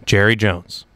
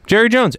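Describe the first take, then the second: First: Said in the usual way. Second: Exasperated second "Jerry Jones"; emphatic repeat. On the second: Real, not acted.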